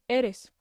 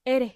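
First: Said in the usual way. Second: "إيري", eres without its final s; Costeño s-less "إيري"; dropped S. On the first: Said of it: "معنات". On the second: Shown as a demonstration. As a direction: end "إيري" on the vowel, no s. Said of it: "ما ينطقون حرف الإس".

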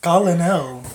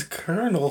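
First: Colonel as "COLL-uh-nel"; mocked pronunciation. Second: Colonel said as "KER-nul"; standard pronunciation. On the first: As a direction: sound out the spelling of Colonel. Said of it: "Who the fuck says Colonel?". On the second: Shown as a demonstration. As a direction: say Colonel like kernel. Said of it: "It's Colonel".

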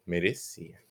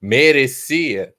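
First: Much softer, lower, flat verdict; quiet answer. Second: Loud, very slow, doubtful question. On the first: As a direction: drop it under your breath. Answers her own question. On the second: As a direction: ask it big, like you doubt it. Poses a rhetorical question. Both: Acted.

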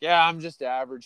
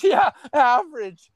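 First: Said in the usual way. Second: High, drawn-out falsetto scoff; mock disbelieving girl. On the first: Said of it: "I was like". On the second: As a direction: mimic her scoffing, slow and squeaky. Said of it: "She goes".

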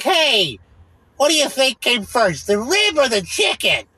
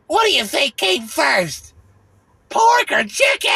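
First: High, slow, goofy ad-guy voice; lightly hammed-up dumb question; mock commercial guy. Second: Very high, slow, shouted mock question; over-the-top parody of an ad actor; hammed-up commercial guy. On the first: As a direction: parody the cheesy commercial actor asking. Mocking the commercial guy's line. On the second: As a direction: squeal the dumb question like a cartoon. Mocking the commercial guy's question.

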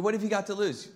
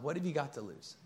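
First: "what have you got to lose?" pushed faster, higher and louder; emphatic question. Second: Gentle question. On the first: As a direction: hit "what" hard and challenge them. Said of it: "I mean". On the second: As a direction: offer "What have you got to lose?" softly and calmly. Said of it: "to simply respond". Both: Shown as a demonstration.

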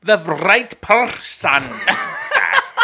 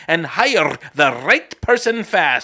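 First: Person said again, laughing, slowly; right person retried through laughter, slow. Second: Person said without the R, like pahson; non-rhotic person, no R sound; dropped R in person. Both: Pretend. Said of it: "What about the R in person".

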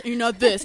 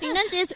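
First: Loud voice at usual pitch; overdone loud demo voice; other wrong extreme. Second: High, raised mock voice; exaggerated high demo voice; one wrong extreme. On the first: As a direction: belt it out, far too strong. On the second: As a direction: push it up high, overdoing it. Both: Shown as a demonstration. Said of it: "It's in between".

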